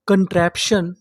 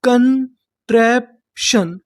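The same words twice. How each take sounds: First: Said in the usual way. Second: Slow sounding out. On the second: Shown as a demonstration. Teacher to Hindi students learning to read English, slow syllable demo. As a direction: stretch कंट्रैप्शन out very slowly, syllable by syllable. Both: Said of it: "तो meaning क्या बनी".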